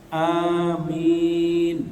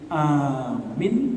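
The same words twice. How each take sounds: First: Both vowels are held long. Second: Only the first vowel is held long. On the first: Grant it, accept it. The speaker calls it right. "perhatikan a-nya panjang, mi panjang" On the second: Believe it. The speaker calls it wrong. "Kalau bacanya a panjang, mi pendek"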